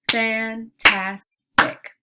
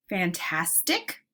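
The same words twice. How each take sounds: First: "Fantastic" slow and loud, fan, tas, tic; segmented into syllables. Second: Said in the usual way. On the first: Shown as a demonstration. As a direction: punch out each separate syllable of "Fantastic". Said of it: "segment words into syllable parts". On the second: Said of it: "I'll say the word".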